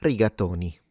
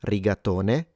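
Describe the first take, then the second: First: "rigatoni" ending on i, like "nee"; Italian plural "rigatoni" with i at the end. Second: "rigatone" ending on e, like "neh"; Italian singular "rigatone" with e at the end. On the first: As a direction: finish "rigatoni" on an i sound. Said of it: "Many, like in your pasta dish". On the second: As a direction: sound the final e of "rigatone". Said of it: "So one". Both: Shown as a demonstration.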